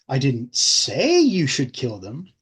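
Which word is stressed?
say. The word 'say' is stressed.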